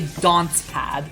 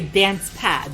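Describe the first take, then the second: First: Dance is said in a British accent. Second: Dance is said in an American accent. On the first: This imitates how the other person says it. "but you say dance pad" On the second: This is how the speaker normally says it. "I would say dance pad"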